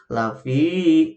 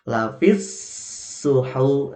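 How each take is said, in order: First: The vowel of fi is drawn out long. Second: The vowel of fi is short and linked on. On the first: The speaker calls it wrong. "Jadi tidak begini" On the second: The speaker calls it right. "gabungkan langsung, pendekkan"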